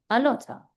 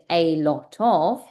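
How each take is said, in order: First: The words are blended into one reduced form. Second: The three words are said fully and separately. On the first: The speaker calls it right. "connected speech, juntar tus palabras" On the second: The speaker calls it wrong. "En vez de decir"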